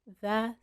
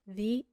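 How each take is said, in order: First: The word sounds like 'thuh'. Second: The word sounds like 'thee'. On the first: The next word starts with a consonant sound. "لو دخلت على كلمة بتبدأ بصوت ساكن هتنطقها the" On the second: The next word starts with a vowel sound. "لو دخلت على كلمة بتبدأ بحرف متحرك هتنطقها the"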